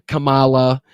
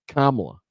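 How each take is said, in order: First: Kamala with the stress moved to a drawn-out middle, kuh-MAH-la; wrong pronunciation. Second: Kamala stressed on the first syllable, KAH-muh-luh, falling; correct pronunciation. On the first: Host listing wrong versions of her name, mispronounced kuh-MAH-luh. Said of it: "It's not, it's not". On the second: Host setting listeners straight on her name, firm KAH-muh-luh. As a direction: say Kamala as COMMA-la, definite. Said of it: "That's how you fucking say her name". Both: Shown as a demonstration.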